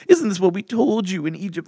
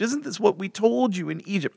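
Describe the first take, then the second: First: It is said in a whiny, complaining voice. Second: It is said in a plain, ordinary voice.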